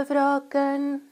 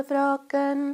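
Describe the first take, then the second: Both takes have the same delivery.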